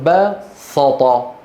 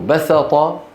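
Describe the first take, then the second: First: The s sound is heavy and emphatic. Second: The s sound is light and plain. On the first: "يقولون بسط، بسط، فيفخمون" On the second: This is the original form of the word. "بدل من أن يقولوا بسط"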